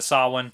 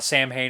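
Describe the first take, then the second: First: No H sound is heard in the middle. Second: An H sound is heard in the middle. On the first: The speaker calls it right. "instead of Sawin" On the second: The speaker calls it wrong. "somebody saying uh, Sam Hain"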